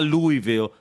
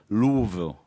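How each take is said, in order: First: The name is said the nonlocal way. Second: The name is said the local way. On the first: The speaker calls it wrong. "Not not Louisville" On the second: The speaker calls it right. "that's how you pronounce it"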